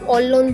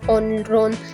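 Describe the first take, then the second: First: The middle consonants sound like l then l. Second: The middle consonants sound like n then r. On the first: The speaker calls it right. "हम ऑलोन बोल रहे हैं" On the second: The speaker calls it wrong. "हम ऐसे तो नहीं बोल रहे कि ऑनरोन, ऐसे नहीं आ रहा"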